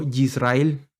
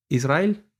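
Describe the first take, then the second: First: "Yisrael" with a hard j-like Y, drawn out slowly; wrong pronunciation demo. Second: "Israel" opening on a clean I vowel; correct pronunciation demo. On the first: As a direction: lean slowly on the buzzy Y opening "Yisrael". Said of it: "no Yisrael". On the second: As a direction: begin "Israel" with ee, no j sound. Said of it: "es decir". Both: Shown as a demonstration.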